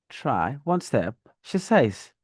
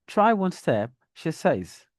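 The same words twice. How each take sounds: First: "step" stretched and lifted; rising, elongated "step" with "says" closing the sentence; dragged rising step. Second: "step" held up, then "says" drops down; quick rise on "Try", fall saved for "says". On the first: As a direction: stretch "step" upward before "she says". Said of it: "At step, there's a dragging, an elongation". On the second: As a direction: keep "step" open and let "says" fall. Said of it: "the falling tone is at the end of says, not at step". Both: Shown as a demonstration.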